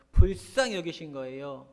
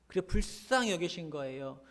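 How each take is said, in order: First: 불쌍히 여기신 거예요 said again louder, leaning on 불쌍히; emphatic repeat. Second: Said in the usual way. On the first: Shown as a demonstration. Pastor driving home to the congregation that 불쌍히 matters, louder. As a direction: repeat it, pressing hard on 불쌍히.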